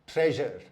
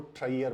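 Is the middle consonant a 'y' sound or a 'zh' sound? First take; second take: zh; y. First: The middle consonant is a 'zh' sound. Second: The middle consonant is a 'y' sound. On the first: The speaker calls it right. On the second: The speaker calls it wrong.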